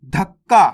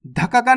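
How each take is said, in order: First: धक्का as "dhak-kaa", k held; correct doubled consonant. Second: धक्का का run as "dha-ka-kaa"; wrong full-letter reading. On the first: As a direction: hold the k, then land louder on the end of धक्का. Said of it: "धक्का का नहीं पढ़ना". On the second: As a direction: give each k its own vowel in धक्का का. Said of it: "नहीं पढ़ना". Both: Shown as a demonstration.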